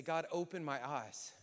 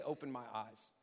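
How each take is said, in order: First: A slightly firmer, heartfelt prayer; earnest plea to God; like you mean it. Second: Said in the usual way. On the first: Shown as a demonstration. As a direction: pray it with conviction. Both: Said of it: "Now say it like you mean it".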